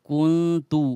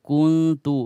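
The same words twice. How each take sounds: The two takes are said the same way.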